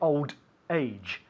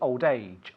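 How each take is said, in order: First: The two words are said separately. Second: The two words run together without a break. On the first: The speaker calls it wrong. "We don't say old age" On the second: The speaker calls it right. "we link the words. We say old age"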